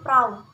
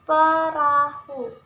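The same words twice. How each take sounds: First: The word is said in a casual, clipped form. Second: The word is said in its full standard form. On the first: The speaker calls it wrong. "Seringkali kita dalam membaca mengucapkan kata perahu yaitu perahu" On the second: The speaker calls it right. "Padahal seharusnya yaitu perahu"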